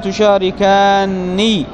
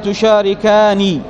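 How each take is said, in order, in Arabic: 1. صوت النون طويل ومضعّف. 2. صوت النون قصير ومفرد. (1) "ويجوز الإدغام وهو جعلهما نونا واحدة مشددة مكسورة" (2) "بنون مخففة"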